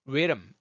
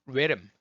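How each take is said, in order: No difference in how they are said.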